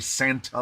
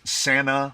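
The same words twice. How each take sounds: First: The T sound in the word is pronounced. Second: The T sound in the word is dropped. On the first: "We don't say Santa Monica" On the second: "We don't pronounce the T. It's Santa"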